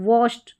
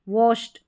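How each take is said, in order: The two takes are said the same way.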